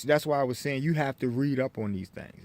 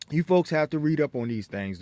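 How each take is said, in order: First: Talking with something in mouth; words slurred round a mouthful; mouth full. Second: Said in the usual way. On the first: Real, not acted. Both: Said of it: "excuse me, I got something in my mouth".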